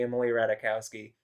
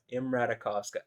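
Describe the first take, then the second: First: Ratajkowski read as spelled in English; spelling pronunciation. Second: Imratakovska with a v and a ska ending; native-style pronunciation. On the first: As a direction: say Ratajkowski the English way, ending in ski. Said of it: "say it like it's spelled". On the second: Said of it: "trying to fucking correct myself". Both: Shown as a demonstration.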